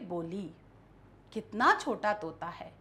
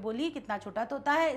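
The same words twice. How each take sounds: First: Read with a pause after the first word. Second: Read quickly straight through without any pause. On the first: The speaker calls it right. "विराम चिन्हों के साथ जब हम इसको पढ़ेंगे" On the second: The speaker calls it wrong. "ना मैं बीच में रुकी, ना मैंने किसी भी विराम चिन्ह का प्रयोग किया"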